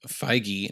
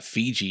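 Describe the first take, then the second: First: The name is said like 'Feige'. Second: The name is said like 'Fiji'. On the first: The speaker calls it right. "not Fiji, as I said in the previous episode, like an idiot" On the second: The speaker calls it wrong. "not Fiji, as I said in the previous episode, like an idiot"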